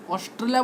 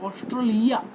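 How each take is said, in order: First: Said in the usual way. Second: "ऑस्ट्रेलिया" as os-tro-lee-ya, rising at the end; altered pronunciation. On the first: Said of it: "ऑस्ट्रेलिया बोलते". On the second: Shown as a demonstration. Teacher showing a word read the wrong way, altered "ऑस्ट्रेलिया". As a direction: round the middle of "ऑस्ट्रेलिया" to "tro". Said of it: "शब्द को गलत तरीके से पढ़ना".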